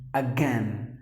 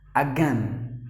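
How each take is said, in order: First: The i in the second syllable is silent. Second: The same.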